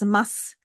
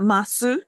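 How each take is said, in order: First: The final u vowel is devoiced, nearly silent. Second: The final u vowel is fully voiced. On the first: The speaker calls it right. "but it's mas. The u sound at the end of the phrase or before a voiceless consonant is devoiced" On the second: The speaker calls it wrong. "it's not masu"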